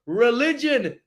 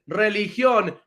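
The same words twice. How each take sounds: First: "Religion" in English, stress on LI, no accent. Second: "religión" in Spanish, stress on the final ÓN. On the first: Teacher contrasting religion with Spanish religión. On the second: Teacher giving the Spanish form of the word. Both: Shown as a demonstration. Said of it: "Pasa de ser religión a religion".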